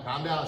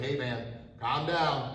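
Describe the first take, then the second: First: Said in the usual way. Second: Calming. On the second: Shown as a demonstration. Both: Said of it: "I'm saying".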